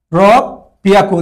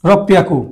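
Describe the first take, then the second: First: রব পিয়াকু slowly, with a long break after রব; slow pronunciation demo. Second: Said in the usual way. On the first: Shown as a demonstration. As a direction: draw out রব, stop, then say পিয়াকু. (রব পিয়াকু ধীরে ভেঙে, থেমে উচ্চারণ) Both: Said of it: "আবার বলি".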